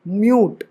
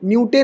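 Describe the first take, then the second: First: It ends on the final t sound. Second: It ends with an extra vowel sound. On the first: The speaker calls it right. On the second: The speaker calls it wrong.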